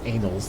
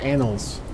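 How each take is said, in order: First: The first vowel sounds like 'day'. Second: The first vowel sounds like 'cat'. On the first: The speaker calls it wrong. "like I was saying. That doesn't even make sense" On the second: The speaker calls it right. "I should say it correctly"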